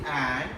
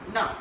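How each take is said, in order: First: The word is said with its full vowel. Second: The word is reduced further to na. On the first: "Strong is and" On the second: "another weaker is na"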